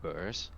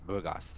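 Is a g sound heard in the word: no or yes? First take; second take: no; yes. First: The word is said without a g sound. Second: The word is said with a g sound. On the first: The speaker calls it wrong. "I thought it would be pronounced like that with burrs" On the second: The speaker calls it right. "but apparently it's burgas"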